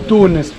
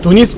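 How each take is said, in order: First: The stress is on the first syllable. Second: The stress is on the second syllable. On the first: This is the Arabic form of the name. "По-арабски Тунис ударение на «у»" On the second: This is the Russian form of the name. "ударение на «и»"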